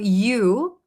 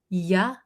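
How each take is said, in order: First: The word has a full, clear 'oo' vowel. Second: The word is reduced to a short 'yuh' sound. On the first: "So you often becomes ya" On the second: "when we say it very quickly"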